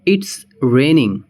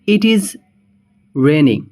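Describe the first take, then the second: First: It is is contracted into one syllable. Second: It is is said as two full words.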